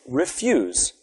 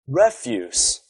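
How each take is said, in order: First: The stress is on the second syllable. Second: The stress is on the first syllable. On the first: To not want or not do something. "Now it becomes a verb" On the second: Rubbish. "Refuse means rubbish"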